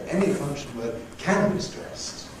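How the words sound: The word can is stressed. "I want to emphasize the positive"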